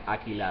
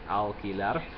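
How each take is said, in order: First: The L is dropped completely from the word. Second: The L is pronounced dark, in a velar way. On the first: "just drop the L completely" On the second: "pronounce it in a more velar way"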